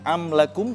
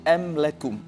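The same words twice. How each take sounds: First: The opening vowel has a throaty, ain-like sound. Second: The opening vowel is plain, without throatiness. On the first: The speaker calls it wrong. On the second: The speaker calls it right.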